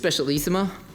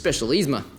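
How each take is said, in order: First: All the sounds of the word are pronounced. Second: Some sounds of the word are dropped. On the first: This is what the speaker believes is correct. "I believe it's" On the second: This is how people from the South say it. "You just leave a few letters off"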